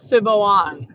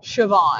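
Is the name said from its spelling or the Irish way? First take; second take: spelling-based; Irish way. First: It is said as the spelling suggests. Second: It is said the Irish way, as heard aloud. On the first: The speaker calls it wrong. "it's not Siobhan as I thought it was" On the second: The speaker calls it right. "It's Siobhan"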